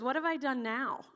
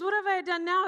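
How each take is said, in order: First: Said in the usual way. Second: Higher, louder mock-exasperated retort; indignant protest. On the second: David answering his accusing older brother, indignant protest. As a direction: protest your innocence loudly.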